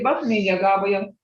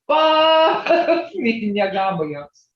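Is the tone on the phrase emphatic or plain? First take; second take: plain; emphatic. First: The phrase is said with a plain, ordinary tone. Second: The phrase is said with an intensifying, emphatic tone. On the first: Someone walked fast. "You can say" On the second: Someone really walked very fast. "if you really was juggling, I mean walking. ... that tone changes that"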